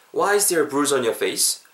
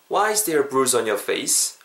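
No difference in how they are said.

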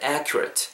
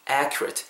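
First: "accurate" ending in a short, soft "ret"; reduced final vowel. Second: "accurate" wrongly ending like the word "rate"; spelling pronunciation. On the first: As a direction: say "accurate" as AK-yu-rit, never RAYT. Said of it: "rate가 아니고 약간 ret에 가깝게". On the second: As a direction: say "accurate" as AK-yu-RAYT. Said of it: "accurate라고 발음하지 마시고". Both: Shown as a demonstration.

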